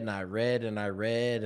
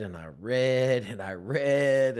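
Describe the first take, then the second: First: Said in the usual way. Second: And I read stretched slow and heavy, a touch louder; slow, dragged-out reading. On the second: Shown as a demonstration. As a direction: drag each word out like struggling to read. Showing how slowly he read.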